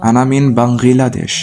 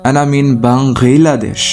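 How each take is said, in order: Both takes have the same delivery.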